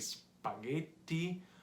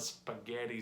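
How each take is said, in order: First: It is said with an Italian pronunciation. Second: It is said with an American English pronunciation. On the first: The speaker calls it right. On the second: The speaker calls it wrong.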